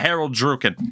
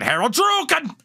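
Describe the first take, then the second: First: The name is said casually, without emphasis. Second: The name is said forcefully, with strong emphasis. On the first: The speaker calls it wrong. "It's not, oh yeah" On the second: The speaker calls it right. "You got to really put some emphasis into it"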